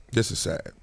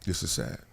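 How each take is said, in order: First: A dismayed, low remark. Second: Softer, sinking repeat; sadder and softer. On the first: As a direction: let the bad news sink in. Reacting to sad Clippers news. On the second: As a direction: let it fade out in sorrow. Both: Real, not acted.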